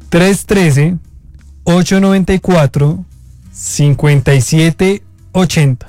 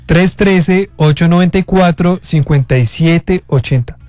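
First: The number is read slowly. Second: The number is read at normal speed.

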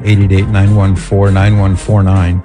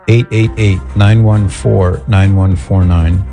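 First: The number is said quickly. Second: The number is said more slowly.

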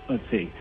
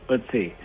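The two takes are said the same way.

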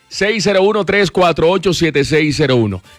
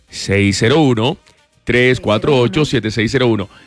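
First: The number is read at normal, quicker speed. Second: The number is read more slowly.

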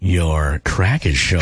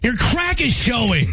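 First: It is said in a flirty tone. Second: It is said in an angry tone.

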